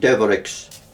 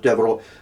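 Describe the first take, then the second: First: The name ends with a clear 'x' sound. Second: The name ends with a French-style vowel ending. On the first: This is how it is said locally in Wexford. "In Wexford, they tend to pronounce it Deverex" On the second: This is the original French way of saying it. "the French pronunciation is Devereux"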